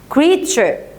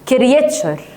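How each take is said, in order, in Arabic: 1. تُنطق بشكل طبيعي، وليس حرفًا حرفًا. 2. تُنطق حرفًا حرفًا، كما تُكتب.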